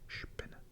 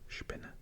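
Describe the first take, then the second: Both takes have the same delivery.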